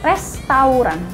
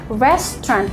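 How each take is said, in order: First: The word is said with three syllables. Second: The word is said with two syllables. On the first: The speaker calls it wrong. "bukan restoran. ... No" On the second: The speaker calls it right. "Cuman dua suku kata"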